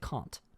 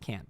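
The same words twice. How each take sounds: First: It is said with a British accent. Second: It is said with a Danish accent.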